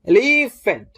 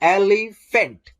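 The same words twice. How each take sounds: First: The middle syllable is strong, the outer ones weak. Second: The middle syllable is weak, the outer ones strong. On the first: The speaker calls it wrong. "हम धीरे बोलेंगे, इसको जोर से बोलेंगे, इसको हम लोग धीरे बोलेंगे" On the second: The speaker calls it right. "एल हम लोग जोर से बोलते हैं, ई हम लोग धीरे बोलते हैं और फेंट हम लोग जोर से बोलते हैं"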